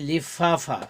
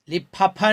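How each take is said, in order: First: The f sound is made with teeth and lip. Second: The f sound is made with both lips. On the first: The speaker calls it right. "बल्कि लिफाफा" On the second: The speaker calls it wrong. "लिफाफा नहीं"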